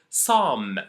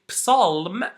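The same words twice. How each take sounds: First: No P or L sound is heard. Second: The P and L sounds are heard. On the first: The speaker calls it right. "I didn't pronounce the P, I didn't pronounce the L" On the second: The speaker calls it wrong. "we never say"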